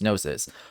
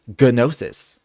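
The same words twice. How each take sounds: First: The word is pronounced the Greek way. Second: The word is pronounced the Japanese way. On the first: "it is like a Greek word, and it's pronounced gnosis" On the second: "in Japanese they say gnosis"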